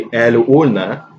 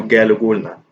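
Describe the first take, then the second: First: قال وقلنا with glottal stops instead of q; qaf as hamza. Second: قال وقلنا with a hard g for each qaf. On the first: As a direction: drop each q in قال وقلنا to a glottal catch. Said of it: "I pronounce qaf as a hamza". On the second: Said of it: "it's kinda useful to use ga". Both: Shown as a demonstration.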